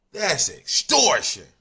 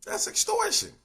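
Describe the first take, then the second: First: Slow, loud and higher outrage; indignant loud declaration; loud outraged call. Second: Far higher, incredulous squeal; high squeaky repeat; squeaky disbelief. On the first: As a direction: call it out loudly. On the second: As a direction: pitch it way up in mock disbelief. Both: Real, not acted.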